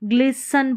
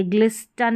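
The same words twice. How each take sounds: First: ग्लिसन with silent T; correct pronunciation. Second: ग्लिस्टन with the T sounded; wrong pronunciation. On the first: Teacher repeating the right reading, ग्लिसन without T. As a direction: say ग्लिसन, s straight into n. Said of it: "ग्लिसन पढ़ेंगे". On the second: Teacher showing what not to read, ग्लिस्टन with spoken T. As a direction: say ग्लिस्टन with an audible t. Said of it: "ग्लिस्टन नहीं". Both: Shown as a demonstration.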